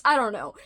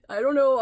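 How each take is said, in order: First: Playful put-on accent, trying for Ollie; tossed-off fake accent; mock accent. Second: Louder put-on accent, trying for Ollie; a failed try at a friend's accent; accent attempt. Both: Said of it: "I was trying to be like Ollie from the channel Criminale with my accent".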